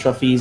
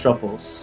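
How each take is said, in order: First: The name ends with an 'ees' sound. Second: The name ends with an 'uls' sound. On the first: The player is on a female character. "a girl character, it's Truffies" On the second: The player is on a male character. "on a guy, it's Truffles"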